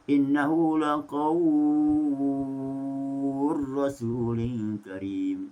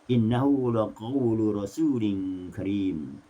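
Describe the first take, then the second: First: The l is merged into the following r. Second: The l is pronounced clearly before the r. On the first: "Susi dibaca dengan idgham, diidghamkan" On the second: "Duri membaca secara tahqiq"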